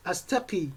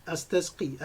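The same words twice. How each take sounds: First: Astaqi, said with no s before the q; poetic short form. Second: Astasqi, with the s sounded before the q; full form. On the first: Teacher reads the poem's short form astaqi, with no s. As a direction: say astaqi as the poem has it, with the s dropped. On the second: Teacher gives the full everyday form astasqi, s sounded. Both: Shown as a demonstration. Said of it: "Astaqi is just like astasqi".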